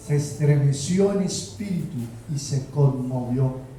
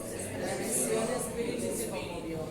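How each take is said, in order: First: Said in the usual way. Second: Whispered fast and much softer; hushed whisper. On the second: Acted. Preacher hushes the church as Jesus is moved. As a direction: breathe it out like a secret. Dramatic hushed first reading.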